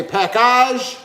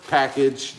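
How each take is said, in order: First: "package" as pack-ahzh, a mock-French ending; mock fancy package. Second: Said in the usual way. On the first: Shown as a demonstration. Host joking to the viewers, "package" as pack-ahzh. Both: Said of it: "or package".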